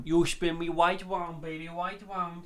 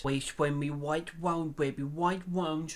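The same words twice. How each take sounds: First: Sung, "wide wound" with W's for R's, slow and mocking; mock Paul singing. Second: "We spin me right round" with every R turned to a W, slow; mock lisp, "waɪt waʊnd" for right round; R's as W's. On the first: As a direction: sing "You spin me wide wound" copying his lisp. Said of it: "Should I start doing every YouTube video like this?". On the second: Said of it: "you cannot even pronounce your R's".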